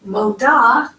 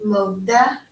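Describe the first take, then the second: First: MODA ending in an open AH; feminine moda. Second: MODEH with a clear "eh" at the end; modeh, final syllable as "deh". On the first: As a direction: say Moda, landing firmly on "dah". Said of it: "this is the feminine". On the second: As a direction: say modeh, landing on an open EH. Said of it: "You say this last bit with the E". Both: Shown as a demonstration.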